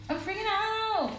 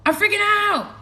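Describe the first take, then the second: First: Very high, softer panicked squeal; small mock freakout. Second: High, loud hammed-up panic; loud mock freakout. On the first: Streamer winding down her freakout, high soft mock squeal. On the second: Streamer announces her freakout to viewers, loud high mock panic. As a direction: shout it in playful hysteria.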